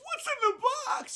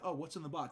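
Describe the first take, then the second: First: It is said in an imitated movie-character voice. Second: It is said in a plain, ordinary voice.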